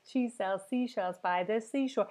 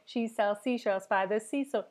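The two takes are said the same way.

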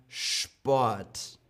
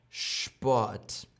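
The two takes are said the same way.

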